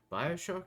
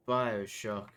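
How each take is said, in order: First: Rising, doubtful echo; puzzled question. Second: Said in the usual way. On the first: Real, not acted. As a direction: question your own word. Echoes own word, doubting.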